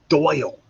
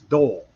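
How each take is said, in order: First: The vowel glides as an 'oy' sound. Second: The vowel is a plain 'oh' sound. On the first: "it's Doyle" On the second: "down south that's Dole"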